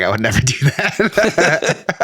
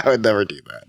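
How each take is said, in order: First: Slow words broken by laughter; laughing. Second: Said in the usual way. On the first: Real, not acted. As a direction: laugh your way through it. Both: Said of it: "I'm totally kidding".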